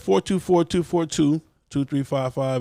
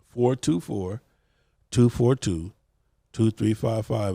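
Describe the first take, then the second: First: The number is read at a normal pace. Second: The number is read more slowly.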